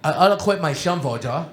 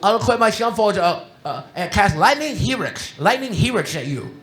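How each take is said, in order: First: Imitating speech impediment. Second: Lisping imitation of a young Magic player; imitating a speech impediment. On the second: Quoting Casey's Magic taunt, imitating his speech impediment. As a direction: do Casey's mushy shum-for-ya voice, a bit higher and louder. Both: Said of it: "he had a speech impediment".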